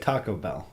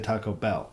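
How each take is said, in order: First: The stress falls on the word Taco. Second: The stress falls on the word Bell. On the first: "you put the t- emphasis on Taco" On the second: "I put the emphasis on Bell"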